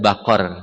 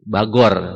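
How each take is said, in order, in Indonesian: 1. Konsonan di tengah itu bunyi q yang dalam. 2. Konsonan di tengah itu bunyi g yang keras. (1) "maksudnya bakor"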